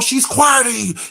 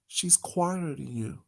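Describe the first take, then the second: First: It is said in a normal, unlowered voice. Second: It is said in a lowered, softer voice. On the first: "It wasn't, oh" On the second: "you saw how his tone lowered"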